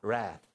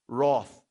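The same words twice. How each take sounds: First: It is said in an American accent. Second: It is said in a non-American accent.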